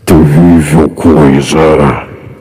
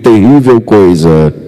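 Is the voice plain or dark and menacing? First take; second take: menacing; plain. First: It is said in a dark, menacing voice. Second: It is said in a plain, ordinary voice.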